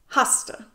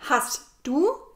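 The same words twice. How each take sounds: First: The two words merge into one blended word. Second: The two words are said as separate words. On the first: "sage ich"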